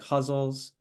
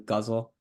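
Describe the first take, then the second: First: The word is given an Arabic-style pronunciation. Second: The word is given an English-style pronunciation. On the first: "if you're thinking more in Arabic" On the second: "in English we often do ghazal"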